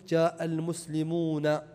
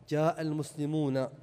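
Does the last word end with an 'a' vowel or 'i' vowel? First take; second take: a; a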